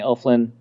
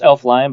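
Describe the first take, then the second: First: The last syllable is a short 'lin'. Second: The last syllable rhymes with 'line'. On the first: This is a shorter, more efficient personal version. "but I like saying Elflin. It just feels more efficient" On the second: This is how the name is really pronounced. "I think it's pronounced Elfline"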